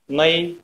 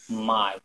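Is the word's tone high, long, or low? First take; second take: high; low. First: The word is said on a slightly higher tone. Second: The word is said on a low tone. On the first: Middle. "little bit higher" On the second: Neck. "Low tone"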